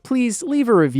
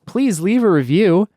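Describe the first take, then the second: First: It is said in an ordinary conversational voice. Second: It is said in a smooth announcer-style voice.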